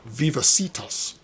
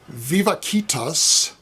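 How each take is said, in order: First: It is pronounced the modern English way. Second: It is pronounced the classical scholarly Latin way. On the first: "a healthcare concern, which pronounces it" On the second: "if you speak scholarly Latin"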